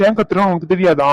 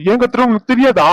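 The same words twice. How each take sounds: First: Irritated demand. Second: Much higher and louder repeat; angry shout. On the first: Husband demands wife know why he yells, irritated. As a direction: ask it sharply but still contained. Repeated question, escalating. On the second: Husband repeats the question to wife, shouting. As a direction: blow up on the repeat. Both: Acted.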